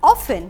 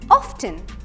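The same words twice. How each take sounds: First: The T sound in the middle is silent. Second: The T sound in the middle is pronounced. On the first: The speaker calls it right. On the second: The speaker calls it wrong.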